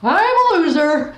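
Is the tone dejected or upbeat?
upbeat. It is said in an upbeat, energetic tone.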